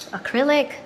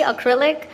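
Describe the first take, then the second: First: "acrylic" said with a questioning rise; catching the slip on "acrylic"; self-correcting word. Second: "Acrylic" repeated loudly with a rise; "Acrylic" stressed in amused disbelief; laughing at own slip. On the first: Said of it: "You see what I was gonna say?". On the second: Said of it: "I'm still on nails mode". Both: Real, not acted.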